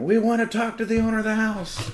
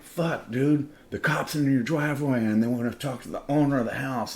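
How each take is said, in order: First: Very high, loud imitated cop scream. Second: High, loud panicky warning; nervous alarm. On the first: Cops in the driveway demanding the owner, screamed. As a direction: holler the demand at full pitch. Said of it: "the cops are screaming". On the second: Retold or imitated. Party guests warning the host about cops, nervous and high. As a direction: blurt out the bad news, pitched up. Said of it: "they're all nervous and shit".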